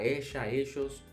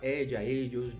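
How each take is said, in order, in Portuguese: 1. Usa a pronúncia argentino-uruguaia das palavras. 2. Usa a pronúncia latino-americana comum das palavras. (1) "tá escutando um argentino falar, é, um uruguaio falar, e você escuta a pessoa falando lá" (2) "Mas a maioria, como Chile, Colômbia, México, República Dominicana, vai falar"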